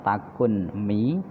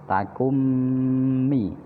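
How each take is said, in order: First: The n is pronounced separately before the m. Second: The n merges into a doubled, nasal m. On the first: "aslinya takun mi" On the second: "tapi dibaca takummi"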